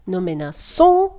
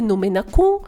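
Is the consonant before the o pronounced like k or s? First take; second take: s; k. First: The consonant before the o sounds like s. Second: The consonant before the o sounds like k. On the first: The speaker calls it right. "щоб вона читалася саме як звук «с»" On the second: The speaker calls it wrong. "тоді це буде «ну менакон»"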